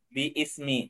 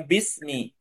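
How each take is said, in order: First: The word is said with three syllables. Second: The word is said with two syllables. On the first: "ini ada ada alifnya ya" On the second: "cuman dibacanya bismi"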